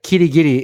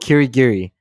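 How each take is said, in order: First: The name is said with Japanese-style pronunciation. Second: The name is said with English-style pronunciation. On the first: This is how it is said in Japanese. The speaker calls it right. "actually the more, I think, correct pronunciation in Japanese" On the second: This is how the game's English version says it. The speaker calls it wrong. "the pronunciation that that they say in the game"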